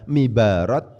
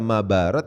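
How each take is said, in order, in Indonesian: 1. Vokal pertama adalah bunyi i. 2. Vokal pertama adalah bunyi a. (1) "dibaca mibarat berarti salah" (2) "dibaca mabarat berarti salah"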